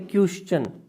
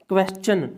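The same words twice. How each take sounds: First: The ending is said with a 'sh' sound. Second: The ending is said with a 'ch' sound. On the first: The speaker calls it wrong. "Not a क्वेश्चन" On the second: The speaker calls it right. "हमेशा च का sound देता है"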